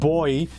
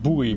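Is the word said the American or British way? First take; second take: American; British. First: It sounds like "boy", the American way. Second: It sounds like "boo-ee", the British way.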